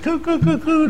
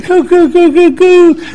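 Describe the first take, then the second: First: High mock baby-talk cooing. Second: High, louder mock cooing at the dog. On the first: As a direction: coo at the dog like a doting owner. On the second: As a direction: gush over the little dog. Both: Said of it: "it just goes on and on".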